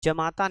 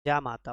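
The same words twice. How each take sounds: First: जमाता said with a short first ज; the short ज of जमाता, as the wrong spelling; जमाता, short a in the first syllable; wrong form. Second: जामाता said with a long first जा; जामाता, long aa in the first syllable; correct form. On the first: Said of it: "जमाता नहीं होता है". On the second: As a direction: lengthen the जा of जामाता. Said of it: "जामाता होता है". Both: Shown as a demonstration.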